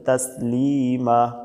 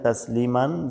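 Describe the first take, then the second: First: The word ends on a vowel without n. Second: The word ends with a final n sound. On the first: "এখানে থামতে হবে যেহেতু শেষ, এজন্য বলতে হবে তাসলিমা" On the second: "আছে এখানে তাসলিমান"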